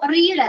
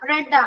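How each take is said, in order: First: The vowel is long, as in reed. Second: The vowel is short, as in red. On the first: The speaker calls it wrong. "റീഡ് അല്ല" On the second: The speaker calls it right. "റെഡ് ആണ്, B three ആണ്"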